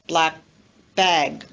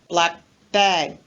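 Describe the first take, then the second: Both takes have the same delivery.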